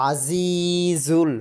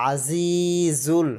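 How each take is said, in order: The two takes are said the same way.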